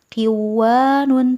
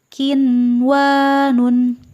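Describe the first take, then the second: First: The n sound before w is dropped. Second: The n sound before w is clearly heard. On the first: The speaker calls it wrong. "Tidak dibaca qiwanun" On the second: The speaker calls it right. "nun mati dibaca dengan jelas"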